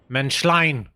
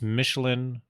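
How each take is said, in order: First: The name sounds like 'Menschlein'. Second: The name sounds like 'Michelin'. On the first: The speaker calls it right. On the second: The speaker calls it wrong.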